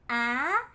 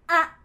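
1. 모음은 음높이를 올려서 발음합니다. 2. 모음은 올리지 않고 세게 발음합니다. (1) "아 하고 성조가 올라갑니다" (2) "아주 강한 아로 발음이 납니다"

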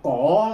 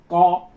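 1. Chữ này được đọc theo cách phát âm tiếng Quan Thoại. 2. Chữ này được đọc theo cách phát âm tiếng Quảng Đông. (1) "Đọc cổ thì cái đó là người quan thổi" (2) "co là người Quảng Đông"

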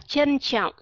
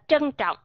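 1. Âm đầu là âm 'ch' không uốn lưỡi. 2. Âm đầu là âm 'tr' uốn lưỡi. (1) "có nơi họ đọc là chờ" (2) "có nơi họ đọc là trở"

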